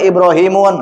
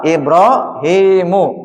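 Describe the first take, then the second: First: The word ends with an added n sound. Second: The word ends on a plain u sound. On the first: The speaker calls it wrong. "Enggak boleh Ibrahimun" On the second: The speaker calls it right. "Ini betul apa? Ibrahimu"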